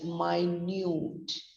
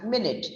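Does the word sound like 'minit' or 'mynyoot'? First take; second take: mynyoot; minit. First: It is said like 'mynyoot', long second vowel. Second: It is said like 'minit', short first vowel. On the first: Very small or tiny. "has different stress and a very different pronunciation" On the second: A unit of sixty seconds. "It's pronounced as minute, M I N I T"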